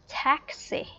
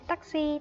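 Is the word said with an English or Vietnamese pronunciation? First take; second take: English; Vietnamese. First: It is said with an English pronunciation. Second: It is said with a Vietnamese pronunciation. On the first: "mà nó sẽ đọc là taxi" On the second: "trong tiếng Việt mình sẽ hay nói là taxi"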